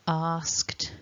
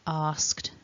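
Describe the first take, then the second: The two takes are said the same way.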